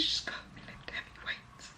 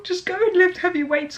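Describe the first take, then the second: First: A secret shared with the viewers; whisper. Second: Pitched high, half-laughing plea; a playful, overcome sign-off plea; mock emotional. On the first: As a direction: lean in and hush the plea. Repeats the plea in a whisper. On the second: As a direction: rise up into a mock-tearful appeal. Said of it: "those got me emotional". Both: Real, not acted.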